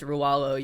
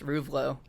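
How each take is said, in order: First: The middle is a vowel with no v sound. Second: The middle has a clear v sound. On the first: This is the real way the name is said. The speaker calls it right. "my last name's Rualo" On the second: This is how people misread the name. The speaker calls it wrong. "you would imagine it's Ruvlo"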